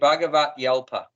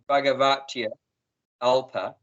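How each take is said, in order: First: The y is joined onto the start of alpa. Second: The y ends the first word, then alpa. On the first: The speaker calls it right. "you join the y on the end of it, the alpa" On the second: The speaker calls it wrong. "instead of saying"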